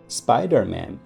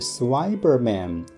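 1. 这个单词以 sp 音开头。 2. 这个单词以 sw 音开头。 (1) "蜘蛛侠正确说法应该是Spider-Man" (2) "小朋友嘴里说出来居然是Swiberman"

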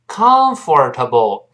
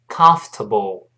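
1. 中间的 'or' 音能听到。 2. 中间的 'or' 音不发。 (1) "不要读成comfortable" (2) "那个or 在这里是听不到的"

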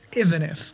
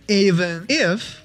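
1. "n"音连到"if"上。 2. 这两个词是分开读的。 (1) "You need to blend one sound into the next one" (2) "instead of saying even if"

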